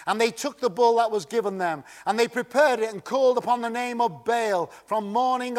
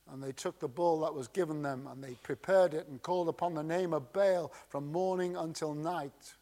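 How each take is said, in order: First: Said in the usual way. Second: Softer and fast, almost under the breath; hushed, hurried scripture reading; quiet quick reading. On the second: Shown as a demonstration. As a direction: read the verse quickly and quietly as an aside. Second reading of verse twenty-six.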